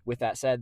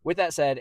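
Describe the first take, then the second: First: Said in the usual way. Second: "with that said" punched loud and high; loud emphatic. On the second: Real, not acted. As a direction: boom out "with that said". Loud emphatic transition in vlog.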